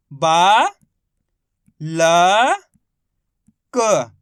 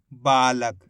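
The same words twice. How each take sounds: First: बा, ल, क each held alone with long gaps; letter by letter. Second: Said in the usual way. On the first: Shown as a demonstration. Teacher spelling for learners, बा ल क in separated sounds. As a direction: sound out बा ल क piece by piece. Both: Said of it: "तो मिलके बन जाएगा".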